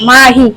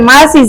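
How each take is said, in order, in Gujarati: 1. વચ્ચેનો વ્યંજન h અવાજ છે. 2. વચ્ચેનો વ્યંજન s અવાજ છે. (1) "છની જગ્યાએ હ લગાવે" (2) "એને આપણે માસી જ કેવી"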